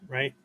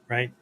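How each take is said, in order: The two takes are said the same way.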